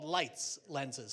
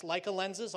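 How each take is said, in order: First: "Leitz" spoken like the word lights. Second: "Leica" spoken as LIKE-uh, the camera brand. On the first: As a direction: say "Leitz" as one syllable, lights. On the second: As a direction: say "Leica" with a long I, LIKE-uh. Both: Shown as a demonstration. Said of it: "the correct pronunciation of the company is Leitz".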